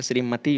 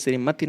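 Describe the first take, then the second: First: श्रीमती with long final "tee"; correct form. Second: श्रीमती with short final i; wrong form. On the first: Teacher giving the correction, श्रीमती with long "tee". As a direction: lengthen the last vowel of श्रीमती. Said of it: "श्रीमती होता है". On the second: Teacher rejecting a spelling, श्रीमती with short "ti". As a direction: clip the last vowel of श्रीमती short. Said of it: "श्रीमती नहीं होता". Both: Shown as a demonstration.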